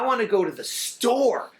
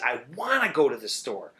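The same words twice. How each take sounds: First: The stress is on the word store. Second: The stress is on the word wanna.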